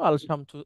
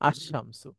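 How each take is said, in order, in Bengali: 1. আল এর 'L' স্পষ্টভাবে উচ্চারিত হয়। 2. 'L' মিশে গিয়ে দ্বিত্ব 'sh' ধ্বনি হয়। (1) "মূলত ছিল আল শামসু, শামসুটা কঠিন" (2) "লামটা আর উচ্চারণ হয় না, একচোটে শিনটা উচ্চারণ হয়"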